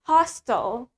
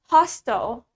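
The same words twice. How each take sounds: First: The word is said in an American accent. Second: The word is said in an American accent.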